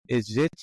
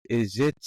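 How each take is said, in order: No difference in how they are said.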